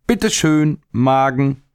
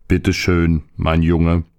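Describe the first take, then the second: First: High, bright teasing call; boy cheekily offers the plum to his stomach, high teasing call. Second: Stomach answering. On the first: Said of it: "rief er". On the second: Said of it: "rief der Magen". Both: Acted.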